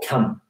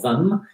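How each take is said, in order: First: The word begins with a k sound. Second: The word does not begin with a k sound. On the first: "in the northern Norwegian dialect, they start with a K" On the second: "you don't say ... hvem"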